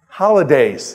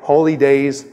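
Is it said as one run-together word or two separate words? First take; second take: one word; two words. First: It is said fast as one joined word. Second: It is said slowly as two separate words.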